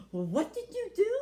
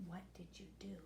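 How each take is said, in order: First: Louder, alarmed question; startled outburst; shocked parents. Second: Much softer, lower, almost breathless; old man drawn in, asking quietly; hushed question. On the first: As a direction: blurt it out in alarm. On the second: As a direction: ask it in a hush. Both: A narrator's reading.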